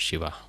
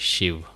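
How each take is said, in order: First: The word ends with an added vowel a. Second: The word ends on the consonant v. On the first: The speaker calls it wrong. "and not Shiva" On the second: The speaker calls it right. "the real actual pronunciation is Shiv"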